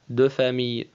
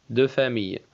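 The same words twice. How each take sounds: The two takes are said the same way.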